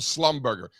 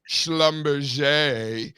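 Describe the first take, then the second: First: It uses the plain, everyday pronunciation. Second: It uses the fancy, upscale pronunciation. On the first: It is how they say it here. "over here, it's the old Slumberger" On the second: It sounds posh. "if you want to be all bougie about it"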